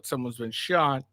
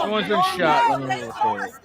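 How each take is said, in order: First: Said in the usual way. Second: Sarcastic mimicry. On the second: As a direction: parody the careless filmer. Mocking bystanders filming.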